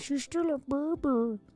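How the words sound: It is said in a cutesy dog voice.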